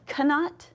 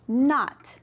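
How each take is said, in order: First: The word begins with a sounded K. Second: The word begins without a K sound. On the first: The speaker calls it wrong. "Do we say cannot? No" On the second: The speaker calls it right. "That's right, not"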